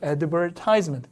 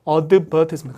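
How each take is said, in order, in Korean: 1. 미국식 발음이에요. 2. 영국식 발음이에요. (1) "미국 사람들은 advertisement 가서 여기 찍어요" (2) "영국 사람들은 약간 advertisement. 강세 여기 있습니다"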